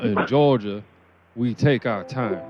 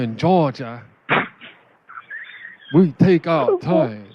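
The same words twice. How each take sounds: First: It is spoken in a Southern American accent. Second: It is spoken with a Chinese-tinged accent. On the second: "with a little bit of Chinese"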